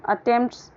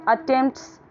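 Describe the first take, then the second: Both takes have the same delivery.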